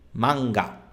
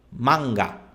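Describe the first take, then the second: Both takes have the same delivery.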